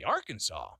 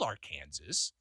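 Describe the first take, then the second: First: Arkansas said "AR-kan-saw"; usual pronunciation. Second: Arkansas said "ar-KAN-zis"; spelling pronunciation. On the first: Host showing how people say it, usual pronunciation. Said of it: "but we say Arkansas". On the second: Host reading the state as spelled, spelling pronunciation. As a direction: Arkansas stressed like Kansas with "ar" in front. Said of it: "it's spelled Arkansas". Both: Shown as a demonstration.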